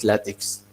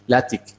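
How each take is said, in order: First: The second syllable ends in a ks sound. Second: The second syllable ends in a plain k sound. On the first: The speaker calls it wrong. "not ticks" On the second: The speaker calls it right. "is uh, tick"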